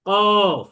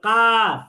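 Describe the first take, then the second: First: The vowel is said with full, rounded lips. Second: The vowel is said with flat, unrounded lips. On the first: The speaker calls it right. "মুখ গোল করে বলতে হবে কফ" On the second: The speaker calls it wrong. "আমরা যদি বলি কাফ তাহলে হবে না"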